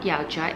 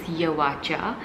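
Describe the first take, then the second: First: Yao runs straight into cha, no middle vowel. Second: An extra 'wa' sound links Yao and cha. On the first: The speaker calls it wrong. "I've been saying it wrong my whole life" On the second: The speaker calls it right. "Yawacha means Yao at Cha"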